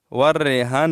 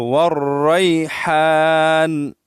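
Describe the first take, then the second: First: والریحان as quick "war-rehaan", plain h; mistaken flat vowel. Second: والریحان very slowly as "war-rayhaan", throaty h; correct recitation. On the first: Retold or imitated. Teacher warning against the misreading, flat "reh". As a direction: flatten والریحان to "reh", light h. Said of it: "نہیں پڑھیں گے". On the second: Shown as a demonstration. Teacher showing the right reading, slow chanted articulation. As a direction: chant والریحان with open "ay" and long haan. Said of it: "والریحان نہیں پڑھیں گے".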